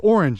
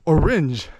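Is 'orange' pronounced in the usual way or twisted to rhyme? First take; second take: usual; twisted. First: The word has its usual, ordinary pronunciation. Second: The word is bent to rhyme with syringes. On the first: "you don't say orange" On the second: "you say orange"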